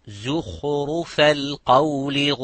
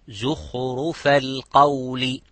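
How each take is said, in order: Both takes have the same delivery.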